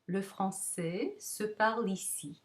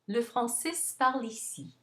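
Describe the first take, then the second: First: Slow, with a held vowel and pause mid-sentence. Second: Fast, said in one go without any pause. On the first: It is said as two rhythmic groups. "So notice you have that little pause" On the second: It is said as one rhythmic group, informally. "Notice there's no pausing"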